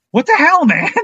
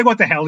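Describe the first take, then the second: First: High-pitched mock outrage; acted-out exasperation, pitched way up; exasperated outburst. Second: Said in the usual way. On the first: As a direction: retell it as an incredulous high yelp. Outraged friend throws hands up.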